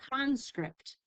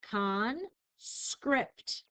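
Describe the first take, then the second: First: Said in the usual way. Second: "Conscript" split into "con", clear pause, "script"; syllable by syllable. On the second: Shown as a demonstration. Teacher saying the syllables for spelling, "Conscript" slowly split in two. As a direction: separate "Conscript" into two slow, distinct syllables. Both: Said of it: "I'll say the syllables".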